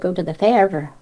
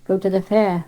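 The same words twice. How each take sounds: First: The r at the end is pronounced. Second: The r at the end is silent. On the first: This is how Cornish people say it. "we do sound our R's" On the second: This is how others say it. "you say fair, fair, go to the fair"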